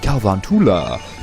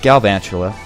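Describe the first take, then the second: First: The name is said in a silly, playful way. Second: The name is said in the usual standard way. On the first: The speaker calls it wrong. "I like being goofy and saying Galvantula" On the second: The speaker calls it right. "but Galvantula"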